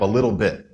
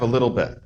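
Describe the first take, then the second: First: The vowel in 'bit' is a high 'ih'. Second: The vowel in 'bit' is lowered toward 'eh'. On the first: This is the intended form. "somebody will say" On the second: This is how younger speakers actually say it. "it'll come out as"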